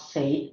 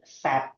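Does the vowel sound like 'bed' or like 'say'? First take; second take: like say; like bed. First: The vowel sounds like the one in 'say'. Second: The vowel sounds like the one in 'bed'. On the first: The speaker calls it wrong. "the right way to pronounce it is not said" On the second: The speaker calls it right. "but sad. Like the way you say something when you are sedih"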